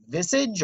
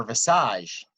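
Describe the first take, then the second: First: Visage said as VIZ-ij; Anglicized visage, rhyming with message's ending; English pronunciation. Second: Visage said as vi-SAHZH; drawn-out French-sounding visage, ending in zh; French-style pronunciation. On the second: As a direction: stress the long second syllable of visage, like massage. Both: Shown as a demonstration. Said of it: "This is just words are funny".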